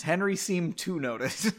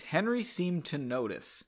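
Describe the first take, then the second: First: Amused re-read with "to" leaned on; puzzled stress. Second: Said in the usual way. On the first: Shown as a demonstration. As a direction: lean on "to" as if the wording is odd, then laugh. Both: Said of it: "that's a weird sentence".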